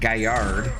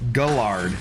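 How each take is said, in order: First: The name is said with a Spanish pronunciation. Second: The name is said with an English pronunciation. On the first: The speaker calls it wrong. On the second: The speaker calls it right.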